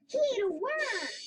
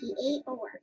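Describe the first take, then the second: First: It is said in an excited way. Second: It is said as a calm statement.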